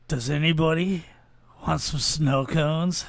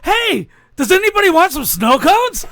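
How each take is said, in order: First: It is said in a creepy voice. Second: It is said in an excited voice.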